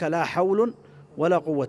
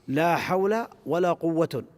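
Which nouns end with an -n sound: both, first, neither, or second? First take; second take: first; second. First: Only the first noun ends with -un. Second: Only the second noun ends with -un. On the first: The particle governs only the second noun. "بإهمال الأول وإعمال الثاني" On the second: The particle governs only the first noun. "بعمل الأول وإهمال الثاني"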